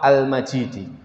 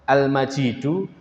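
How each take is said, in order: First: The word ends with an i vowel. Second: The word ends with a u vowel. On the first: The glory describes God's throne. "harokatnya kasrah" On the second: The glory describes God himself. "harokatnya dhammah"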